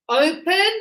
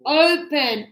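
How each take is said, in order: First: Open, loud, weight on the O; stress on O. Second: Open, loud, the O leading; stress on O. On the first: Teacher drilling first-syllable stress in Open for students. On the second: Teacher repeating open with the O stressed. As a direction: lean on the O of open. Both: Shown as a demonstration. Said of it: "the strength is here at the beginning".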